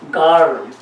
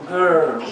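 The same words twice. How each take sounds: First: Put-on girl said as gar, open ah vowel; wrong girl. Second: Put-on girl with the er vowel, girl like gurl; girl said the right American way; corrected girl. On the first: Learner showing his old mistake, girl as gar. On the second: Learner giving the corrected word girl. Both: Shown as a demonstration.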